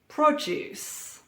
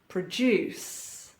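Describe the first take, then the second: First: The stress is on the first syllable. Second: The stress is on the second syllable. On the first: It is used as a noun or adjective. "stress on the first syllable" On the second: It is used as a verb. "Stress or emphasis on the second syllable"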